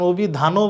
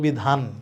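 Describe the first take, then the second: First: The word ends with an added final vowel sound. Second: The word ends sharply on the final consonant. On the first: The speaker calls it wrong. "অভিধানও বলছি না" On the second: The speaker calls it right. "আমি বলছি অভিধান, break করছি"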